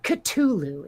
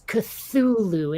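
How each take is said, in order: First: The word is said without a th sound. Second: The word is said with a th sound. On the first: The speaker calls it wrong. "It is not Cthulhu" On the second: The speaker calls it right. "it is Cthulhu. ... It is a T H sound"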